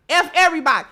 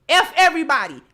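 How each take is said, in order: Both takes have the same delivery.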